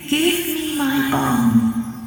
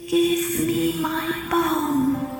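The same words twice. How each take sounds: First: It is said more loudly. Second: It is said softly.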